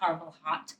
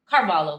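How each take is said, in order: First: The name ends with a clear 'hot' sound. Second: The name ends without a 'hot' sound. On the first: The speaker calls it wrong. "not Carvel Hot" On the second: The speaker calls it right. "Carvalho Tiff, that's it"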